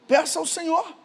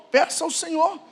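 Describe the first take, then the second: No difference in how they are said.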